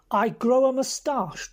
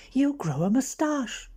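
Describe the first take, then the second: First: Higher, louder and slow, repeating it in disbelief; incredulous echo. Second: Said in the usual way. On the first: Acted. Bobby echoing Frankie's plan back in outraged disbelief. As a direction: throw the words back, stunned.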